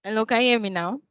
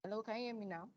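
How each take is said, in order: First: Louder, clearer question; speaking up. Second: Very soft, faint question; almost too quiet to hear; barely audible. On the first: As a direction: project the voice to be heard. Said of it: "Much better". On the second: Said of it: "your voice is very low". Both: Real, not acted.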